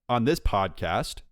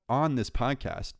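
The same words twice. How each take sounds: First: The vowels are pronounced in the usual normal way. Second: The vowels are distorted in an odd, put-on way. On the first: The speaker calls it right. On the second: The speaker calls it wrong.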